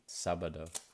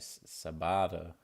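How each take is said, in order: First: The stress is on the first syllable. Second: The stress is on the middle syllable. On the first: The speaker calls it right. "but it's actually sábado" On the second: The speaker calls it wrong. "Put the emphasis on the B A"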